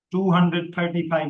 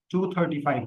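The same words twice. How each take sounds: First: Said in the usual way. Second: टू thirty five grouped as two then thirty-five; split digits. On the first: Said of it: "नहीं कहेंगे हम". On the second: Shown as a demonstration. Teacher shows the native way to read numbers. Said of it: "कहेंगे".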